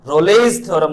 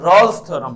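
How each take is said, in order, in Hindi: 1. नाम में दो शब्दांश हैं, और 'e' बोला जाता है। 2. नाम में एक ही शब्दांश है, और 'e' साइलेंट है। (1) "रोलेज थ्योरम नहीं पढ़ेंगे" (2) "ई साइलेंट है बच्चों"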